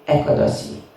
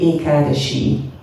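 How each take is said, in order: First: The sound before the last vowel is s. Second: The sound before the last vowel is sh. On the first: This is how people in one country usually say it. The speaker calls it wrong. "in Hungary they always say Ekadasi" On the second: This is the proper traditional way to say it. The speaker calls it right. "So it should be Ekadashi"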